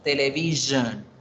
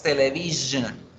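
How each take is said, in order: The two takes are said the same way.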